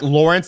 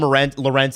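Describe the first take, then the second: First: The name sounds like the river name Lawrence. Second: The name is said as Lorentz, ending in 'ts'. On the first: This is the proper pronunciation of the name. "more like Lawrence as in the, the river" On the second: This is how most people say the name. "people call him Lorentz, and he's fine with that"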